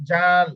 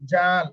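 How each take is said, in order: The two takes are said the same way.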